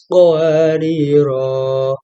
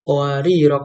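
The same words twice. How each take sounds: First: The final vowel is held long. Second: The final vowel is kept short. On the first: "akhir ayat lima belas row-nya dibaca panjang" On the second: "kedua row-nya dibaca pendek"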